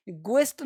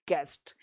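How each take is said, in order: First: गेस्ट misread as "gu-est"; U sounded in guest. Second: गेस्ट with hard G straight into E; silent U in guest. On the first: Teacher shows learners the wrong way, गेस्ट as "guest" with U voiced. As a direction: put a "gw" glide at the start of गेस्ट. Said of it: "गेस्ट नहीं बोलते". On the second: Teacher models the correct word for learners, गेस्ट with silent U. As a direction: say गेस्ट as one syllable, "gest", no glide. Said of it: "silent है". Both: Shown as a demonstration.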